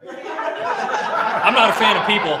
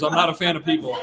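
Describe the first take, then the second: First: "not" punched slow, higher and louder, laughing; stress on not. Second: Tossed off again with a laugh, lighter; laughing repeat. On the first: Trainer jokes about the public, "not" slow and loud with a laugh. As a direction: lean on "not" in "I'm not a fan of people", slow and laughing. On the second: Trainer repeats his joke to the audience, laughing. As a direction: repeat "I'm not a fan of people" casually through a chuckle. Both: Real, not acted. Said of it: "I've worked at Park City for twenty years".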